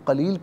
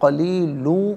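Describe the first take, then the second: First: The word ends on the bare final consonant. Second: The word ends with an added vowel ending. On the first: The reader stops at this word. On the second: The reading continues without stopping.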